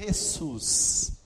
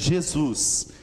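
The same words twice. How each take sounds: First: It is said with a Spanish pronunciation. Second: It is said with a Portuguese pronunciation. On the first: "Em espanhol, vira Jesus" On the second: "Quando ele passa para o português, ele vira Jesus"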